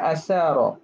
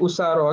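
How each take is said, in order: First: The first vowel is an a sound. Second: The first vowel is a u sound. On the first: "Boleh juga dibaca dengan asara" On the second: "usara baca dengan dhammah hamzah"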